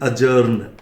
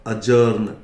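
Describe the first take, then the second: No difference in how they are said.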